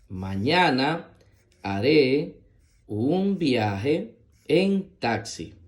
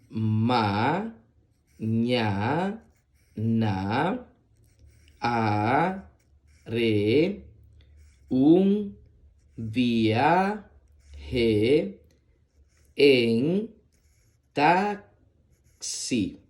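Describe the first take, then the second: First: It is read quickly and fluently. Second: It is read slowly, syllable by syllable.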